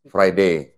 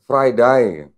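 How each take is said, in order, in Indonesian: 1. Ini diucapkan dengan aksen Inggris Britania. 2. Ini diucapkan dengan aksen Inggris Australia. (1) "Kalau orang Inggris, Britain gitu kan, ngomong Friday gimana?" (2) "Coba orang Australia, sama-sama bahasa Inggris, ngomongnya gimana?"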